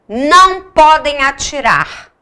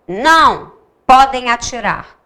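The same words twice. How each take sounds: First: It is said without a pause after não. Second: There is a pause right after não. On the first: Shooting is forbidden. "Aqui é para não atirar" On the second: Shooting is allowed. "esse não aqui tá dizendo sim com vírgula"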